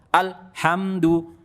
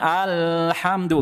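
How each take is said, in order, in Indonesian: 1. Bunyi l berhenti mendadak dan tersentak-sentak. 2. Bunyi l ditahan terlalu lama. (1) "Ini juga kesalahan" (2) "bukan kelamaan"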